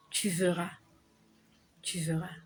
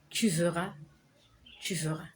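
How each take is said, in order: Both takes have the same delivery.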